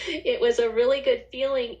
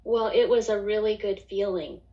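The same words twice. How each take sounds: First: Laughing through the words; real laugh breaking into the repeat. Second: Said in the usual way. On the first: Real, not acted. Telling the host about her good feeling, laughing.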